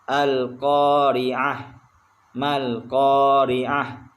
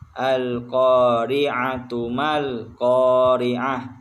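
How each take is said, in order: First: The first word ends with a soft h sound. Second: The first word ends with a t sound and vowel. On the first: The reader stops after the first word. "Kalau berhenti maka di maka dia menjadi huruf ha" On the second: The verse is joined to the next one. "Kalau disambung maka dibaca huruf ta marbutahnya"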